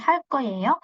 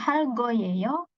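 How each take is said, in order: First: The consonant after hal is tense and hard. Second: The consonant after hal is plain and soft. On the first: The speaker calls it right. "tapi hal koyeyo" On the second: The speaker calls it wrong. "Jadi bukan hal goyeyo"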